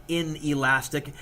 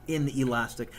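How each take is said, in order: No difference in how they are said.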